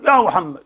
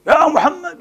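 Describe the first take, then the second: First: Said in the usual way. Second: High rising call of a name; raised mock shout of يا محمد. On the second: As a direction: call him from outside the rooms. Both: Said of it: "ينادونك من وراء الحجرات".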